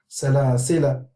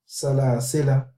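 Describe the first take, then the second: First: The final vowel is short. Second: The final vowel is short.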